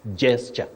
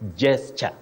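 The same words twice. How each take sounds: First: The word begins with a j sound. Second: The same.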